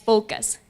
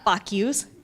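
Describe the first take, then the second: First: It sounds like the standard word focus. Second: It sounds like the two words fuck yous. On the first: The speaker calls it right. "it's focus" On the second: The speaker calls it wrong. "not fuck yous"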